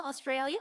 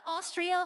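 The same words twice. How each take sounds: First: Australia said as aw-STRAY-lee-uh with a rising tune; Australia, not Austria. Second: Austria said as AW-stree-uh, pitched up; Austria, not Australia. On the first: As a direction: say Australia with the long ay sound. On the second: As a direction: say Austria clearly, two syllables after Aus. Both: Shown as a demonstration.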